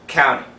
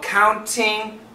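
First: The T after the N is dropped. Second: The T after the N is clearly pronounced. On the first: "typical American pronunciation" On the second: "perfect pronunciation"

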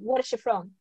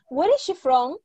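First: The question is said with flat pitch. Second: The question is said with a clear melody. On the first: The speaker calls it wrong. "no me dicen" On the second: The speaker calls it right. "Entonen bien"

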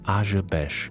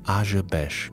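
First: The name is pronounced in an odd-sounding way. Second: The name is pronounced in an odd-sounding way.

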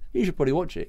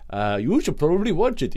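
First: It is said in the speaker's usual accent. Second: It is said in a put-on different accent.

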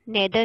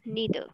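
First: The first vowel sounds like 'eh'. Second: The first vowel sounds like 'ee'. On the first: The speaker calls it wrong. "नेदर नहीं बोलना" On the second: The speaker calls it right. "It is नीदर"

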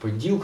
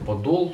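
First: The last syllable has an 'ee' vowel. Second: The last syllable has an 'o' vowel. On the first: The speaker calls it wrong. "вона кажуть Поділ" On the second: The speaker calls it right. "хоча правильно казати Подол"

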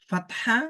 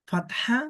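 Both takes have the same delivery.

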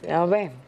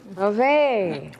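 First: It is said at a low pitch. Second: It is said at a medium pitch.

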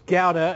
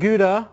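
First: Gouda is said with an English pronunciation. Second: Gouda is said with an American pronunciation.

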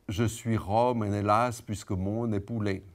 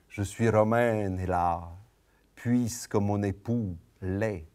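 First: The line is spoken in a rigid, regular beat. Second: The line is spoken in a freer, varied rhythm. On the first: The speaker calls it wrong. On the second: The speaker calls it right.

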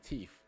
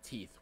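First: Teeth is said in an African American pronunciation. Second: Teeth is said in a standard pronunciation. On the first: This is how the speaker's community says it. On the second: This is not how the speaker's community says it. "we don't say teeth"

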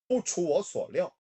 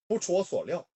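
First: The phrase is spoken at medium speed. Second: The phrase is spoken fast. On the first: "2단계" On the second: "3단계"

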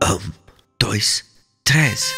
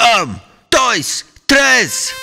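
First: It is counted very quietly. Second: It is counted as loud as possible.

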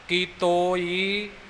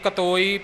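First: The first syllable has a long 'kee' sound. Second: The first syllable has a short 'ka' sound. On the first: The speaker calls it right. "ਸ਼ੁੱਧ ਉਚਾਰਨ ਹੋਵੇਗਾ" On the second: The speaker calls it wrong. "ਕਈ ਕਤੋਈ ਪਿਓਈ ਇਉਂ ਪੜ ਜਾਂਦੇ ਨੇ, ਜੋ ਬਿਲਕੁਲ ਹੀ ਅਸ਼ੁੱਧ ਹੈ"

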